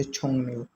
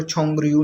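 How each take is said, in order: First: छोंगन्यो with the r turned into an n sound, chong-nyo; correct reading. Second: छोंगरियू read letter by letter with a clear r sound; wrong reading. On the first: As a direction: say छोंगन्यो with a nasal n in place of the r. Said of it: "इसकी नून की आवाज़ निकालते हैं". (छोंगन्यो सही उच्चारण, र की जगह न की आवाज़) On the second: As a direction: say छोंगरियू the way a beginner would misread it, with r. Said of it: "इसको छोंगरियू नहीं पढ़ना". (छोंगरियू गलत उच्चारण, र की आवाज़ के साथ) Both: Shown as a demonstration.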